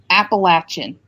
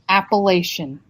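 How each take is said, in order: First: It uses the pronunciation people from the region use. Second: It uses the pronunciation outsiders to the region use. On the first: The speaker is from the region. The speaker calls it right. "It's pronounced Appalachian" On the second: The speaker is not from the region. The speaker calls it wrong. "it is not pronounced Appalachian"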